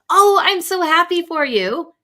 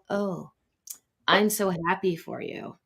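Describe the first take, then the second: First: It sounds sincerely, warmly happy. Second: It sounds jealous and envious.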